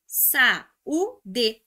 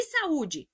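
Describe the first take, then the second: First: Saúde broken into sa, ú, de; split into syllables. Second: Said in the usual way. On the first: Shown as a demonstration. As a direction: say sa-ú-de with a gap after each syllable. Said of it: "isso aqui é regra do hiato". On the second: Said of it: "sa-u-d".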